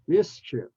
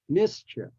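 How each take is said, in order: First: The second vowel is short, like in 'if'. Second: The second vowel is short, like in 'if'.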